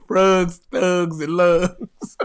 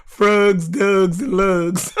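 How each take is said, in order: First: "Frugs", "Thugs", "Lugs" all with a short u like "rug"; Baltimore "frogs" sound again. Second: "Frugs" with a short u like "rug", same for "Dugs" and "Lugs"; drawn-out Baltimore vowels in "Frugs", "Dugs", "Lugs"; Baltimore "frogs" sound. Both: Shown as a demonstration. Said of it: "that's great".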